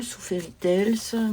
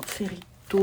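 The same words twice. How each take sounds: First: "Fairy Tales" with the second word sounded like "tels"; self-corrected English pronunciation. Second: "Fairy Tales" with the second word sounded like French "tôle"; botched English pronunciation. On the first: Vlogger correcting her English book title, "Fairy Tales" said as "tels". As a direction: say "Fairy Tales" French-accented, ending in a clear "tels". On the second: Vlogger fumbling her colouring book's English title, mispronounced "Fairy Tales". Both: Real, not acted. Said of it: "Moi et mon accent anglais".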